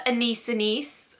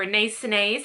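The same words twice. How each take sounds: First: "Anise Anise" with a long EE in each second syllable; "ee" pronunciation. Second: "Anise Anise" with an AY vowel in each second syllable; "ay" pronunciation. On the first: Reviewer offers one way to say the perfume name, "Anise Anise" with EE sounds. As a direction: say "Anise Anise" as uh-NEECE uh-NEECE. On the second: Reviewer offers another way to say the perfume name, "Anise Anise" with AY sounds. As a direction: say "Anise Anise" as uh-NAYCE uh-NAYZ. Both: Shown as a demonstration. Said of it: "however you want to pronounce it".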